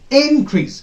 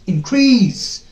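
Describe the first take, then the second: First: The stress is on the first syllable. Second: The stress is on the second syllable. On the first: The word is used as a noun. "When the first uh, syllable is stressed" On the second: The word is used as a verb. "When the second syllable is stressed"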